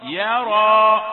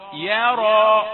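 First: The r sound is light and thin. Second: The r sound is heavy and emphatic. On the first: The speaker calls it right. "يا رقيقة" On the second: The speaker calls it wrong. "مش يرى"

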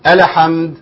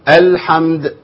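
First: The L is given a short vowel. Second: The L is held only briefly before the M. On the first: The speaker calls it wrong. "وحركها كده، لا ما تنفعش برضو" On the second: The speaker calls it right. "نريح عليها شويه، بس مش زي السين وزي الحاء"

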